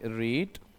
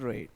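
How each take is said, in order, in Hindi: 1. स्वर लंबा है, 'reed' जैसा। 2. स्वर छोटा है, 'red' जैसा। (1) "ये पहला रीड है" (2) "सेकेंड और थर्ड को रेड बोलते हैं"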